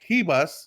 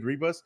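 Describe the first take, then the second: First: The name begins with an H sound. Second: The name begins with an English R sound. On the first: The speaker calls it right. "the R's are pronounced like H" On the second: The speaker calls it wrong. "I'm pronouncing her name wrong. I keep saying Ribas"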